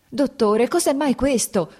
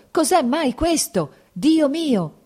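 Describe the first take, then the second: First: Panicked cry. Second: Desperate wail. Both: A narrator's reading. Lievin panicking, grabbing doctor.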